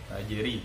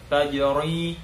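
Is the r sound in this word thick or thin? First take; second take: thin; thick. First: The r is pronounced light and thin. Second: The r is pronounced heavy and thick. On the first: The speaker calls it right. "dia ri itu tipis" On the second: The speaker calls it wrong. "tidak boleh tajri tajri"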